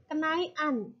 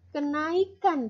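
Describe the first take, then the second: First: Kenaian, the k left out, said slowly; Javanese-style kenaikan with no k; dropped k. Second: Said in the usual way. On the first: Shown as a demonstration. Teacher showing class the Javanese form: slow kenaian. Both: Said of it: "ketika orang Jawa yang melafalkan".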